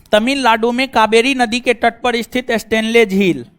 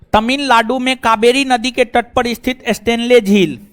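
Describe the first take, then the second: The two takes are said the same way.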